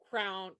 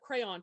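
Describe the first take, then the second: First: It is one syllable, sounding like crown. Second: It is two syllables, the second rhyming with dawn. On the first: "Sounds like crown" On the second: "the two syllables where the second syllable rhymes with dawn"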